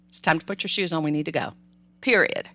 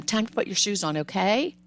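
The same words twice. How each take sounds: First: Firm falling tune, no question; direct. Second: Okay tacked on with a rising tune; asking tone. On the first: Parent giving a firm directive about shoes, falling tune. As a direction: state it as a done deal. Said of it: "Be direct". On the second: Parent ends a shoe command with a questioning okay. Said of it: "I hear parents do this all the time". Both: Shown as a demonstration.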